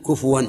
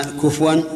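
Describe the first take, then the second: First: كفوا with a clear u on the ف; kufuwan with damma. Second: كفوا said slowly with the ف drawn out on a rounded u; kufuwan with damma. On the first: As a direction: say كفوا as ku-fu-wa, the ف carrying a short u. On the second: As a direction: stretch كفوا as ku-fu-wan, the u clear on ف. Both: Shown as a demonstration. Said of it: "بضم الفاء".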